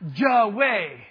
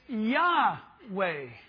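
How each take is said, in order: First: The name begins with a J sound. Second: The name begins with a Y sound. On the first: The speaker calls it wrong. "Not Jahweh" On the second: The speaker calls it right. "it's Yahweh"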